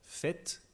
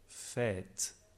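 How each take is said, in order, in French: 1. La voyelle est brève. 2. La voyelle est longue. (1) "le « est bref »" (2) "le « est long »"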